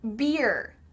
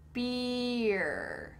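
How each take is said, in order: First: The word is said at a normal pace. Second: The word is said slowly and drawn out.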